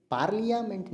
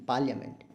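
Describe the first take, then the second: First: Hushed "पार्लियामेंट" with each of "par-li-ya-ment" sounded; wrong pronunciation. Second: "पार्लियामेंट" shortened to "pal-ya-ment"; correct pronunciation. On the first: Teacher showing the silent-I mistake, mispronounced. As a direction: spell out the I and A in "पार्लियामेंट". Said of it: "नहीं". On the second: Teacher showing the silent I, correctly pronounced. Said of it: "आई का sound नहीं आ रहा". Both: Shown as a demonstration.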